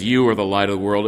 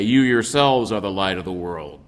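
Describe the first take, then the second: First: "You" pushed forward, quick and firm; emphatic You. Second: "You yourselves" hit hard, then a falling end; stress on you yourselves. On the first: Preacher reading scripture with emphatic "You" stressed. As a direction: lean on "You" as the reading is explained. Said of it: "it actually is emphatic when it says". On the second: Preacher rendering the Greek emphasis, stressing "You yourselves". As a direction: press "You yourselves" to make the emphasis clear. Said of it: "to emphasize the, the structure". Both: Shown as a demonstration.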